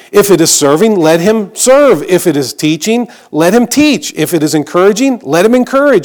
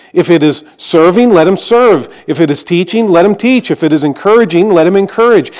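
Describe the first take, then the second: Both takes have the same delivery.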